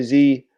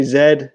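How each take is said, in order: First: "Z" said as zee, American style. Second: "Z" said as zed, British style. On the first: Explaining Canadian letter names: "Z" as zee. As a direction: say "Z" as zee, rhyming with see. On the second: Explaining Canadian letter names: "Z" as zed. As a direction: say "Z" as zed, not zee. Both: Shown as a demonstration. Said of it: "some people say Z".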